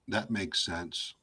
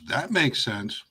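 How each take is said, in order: First: It is said flatly, with no expression. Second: It is said in a sarcastic tone. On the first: The listener is not convinced it makes sense. "with no tone, no body language" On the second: The speaker does not really think it makes sense. "then I'm like being sarcastic"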